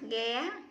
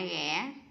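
First: The pitch rises high and sharply. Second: The pitch rises with a break in the voice. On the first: "sắc" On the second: "ngã"

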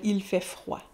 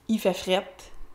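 First: The last word is said with a 'wa' sound. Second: The last word is said with an 'et' sound. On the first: This is the standard way to say it. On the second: This is the informal way to say it.

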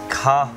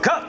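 First: It is shouted flatly, sounding dissatisfied. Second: It is shouted brightly, sounding satisfied. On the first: The take was not good. "不OK 的话就" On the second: The take was good and will pass. "如果很OK 的话"

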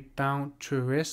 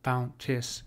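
First: The word is said with three separate syllables. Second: The middle vowels merge, giving two syllables. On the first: The speaker calls it wrong. "you might be pronouncing this as a three syllable word" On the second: The speaker calls it right. "he wants these two vowels here merged into one"

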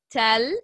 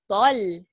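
First: The t sound is light and plain. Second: The t sound is heavy and emphatic. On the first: The speaker calls it wrong. "not tell" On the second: The speaker calls it right. "it's طل"

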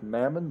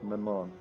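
First: The stress is on the first syllable. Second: The stress is on the second syllable. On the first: The speaker calls it wrong. "not Mammon" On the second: The speaker calls it right. "it would accent the second syllable"

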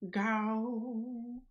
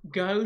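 First: The word is said with a noticeable twang. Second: The word is said plainly, without a twang.

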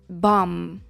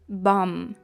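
The two takes are said the same way.

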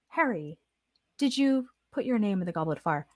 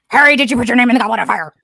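First: The question is asked in a quiet, even voice. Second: The question is asked in an agitated, forceful voice. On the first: The asker is simply enquiring, as in the book. "We're not going to ask calmly, like it says in the book" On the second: The asker is accusing and upset, as in the film. "You don't say it calmly. Unlike, what was written in the book. You have to say it appropriately"

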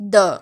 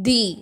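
First: The vowel is a short uh sound. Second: The vowel is a long ee sound. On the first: The next word starts with a consonant sound. "த அப்படின்னு தான் சொல்லுவோம்" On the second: The next word starts with a vowel sound. "தி அப்படின்னு சொல்லுவோம்"

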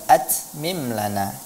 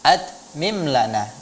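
First: The t sound has an added hissing whistle. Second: The t sound is plain, with no hiss. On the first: The speaker calls it wrong. "bukan atmim lana" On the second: The speaker calls it right.

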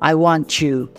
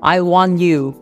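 First: The t and 'you' blend into a 'ch' sound. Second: The t and 'you' are said separately.

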